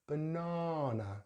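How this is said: The middle vowel is a long open 'ah'. "we're going to use the long vowel sound ah for British"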